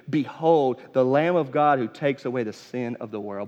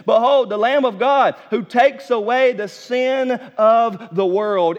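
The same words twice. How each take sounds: First: Said in the usual way. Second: Loud, slow proclamation; proclaiming. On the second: Acted. John pointing the crowd to Jesus, loud slow proclamation. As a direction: announce it slowly to the crowd.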